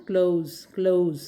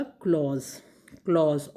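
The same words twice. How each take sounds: First: क्लोज repeated with a gliding "ou" vowel; O-U glide. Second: क्लॉज with one open "aw" vowel; open AW sound. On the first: Teacher repeats the first word, gliding क्लोज. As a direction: model क्लोज with the vowel sliding from O to U. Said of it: "ये औ sound है". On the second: Teacher gives the second word, open-vowelled क्लॉज. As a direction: model क्लॉज twice, vowel open without a glide. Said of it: "ओ sound है इसमें". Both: Shown as a demonstration.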